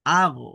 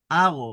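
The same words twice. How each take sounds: First: আগো with a forced, pushed last syllable; wrong pushed stress. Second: Said in the usual way. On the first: Shown as a demonstration. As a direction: punch আগো too hard, the wrong way. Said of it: "এইভাবে ধাক্কা দেওয়া যাবে না". (আগো জোরে ধাক্কা দিয়ে ভুল উচ্চারণ) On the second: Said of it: "স্বাভাবিকভাবে হবে".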